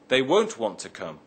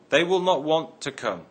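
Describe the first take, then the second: First: Will not is contracted into one syllable. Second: Will not is said as two full words. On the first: "Notice the change from will not to won't" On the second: "may be shortened to"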